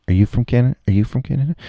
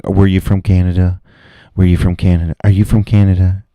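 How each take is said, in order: First: Pitched up, sing-song query; higher mock questioning. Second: Louder, blunt repeated question; mock loud questioning. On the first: At the bar, mock-grilling patrons again, high teasing. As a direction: lift it higher each time, teasing. Imagined asking, second take. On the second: At the bar, mock-grilling patrons on where they're from, loud. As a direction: bark it like an interrogator. Imagined asking patrons' origin.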